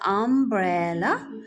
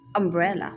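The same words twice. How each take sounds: First: The first vowel sounds like the letter name 'yoo'. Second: The first vowel is a short 'uh' sound. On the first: The speaker calls it wrong. "It is not umbrella" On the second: The speaker calls it right. "it's U"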